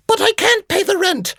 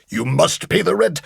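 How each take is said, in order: First: Very high falsetto plea; distressed damsel. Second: Menacing melodrama villain voice; mustache twirling villain. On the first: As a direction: squeal it like a helpless heroine. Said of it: "old melodrama played out". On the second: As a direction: sneer it like a stage villain. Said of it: "the villain would come in and would go". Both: Retold or imitated.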